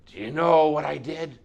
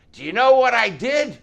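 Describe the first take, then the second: First: Firm, raised-voice demand; insistent, forceful questioning. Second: High, loud fanatical shout; wild, yelled challenge; crazy madman. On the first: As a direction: challenge the whole room with the question. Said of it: "He demanded of the room". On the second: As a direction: demand it like a raving madman. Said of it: "he sounded like a fanatic, crazy madman". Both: Acted.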